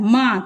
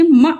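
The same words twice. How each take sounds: First: मा with a full open "maa"; long aa sound. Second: म said short as "ma", like "muh"; short vowel. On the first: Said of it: "मा पे आ का sound है". (मा को लंबे आ के साउंड से बोलें) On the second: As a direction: cut म short, no long aa. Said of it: "म नहीं आ रहा है". (म को छोटा, बिना आ की मात्रा के) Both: Shown as a demonstration.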